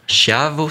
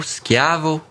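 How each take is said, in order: First: Said in the usual way. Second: "schiavo" repeated with a hard sk, as skyah-vo, pitched higher; careful Italian pronunciation. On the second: Shown as a demonstration. Host explaining the origin of ciao, says "schiavo" carefully as skyah-vo. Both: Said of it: "dériverait du vénitien schiavo".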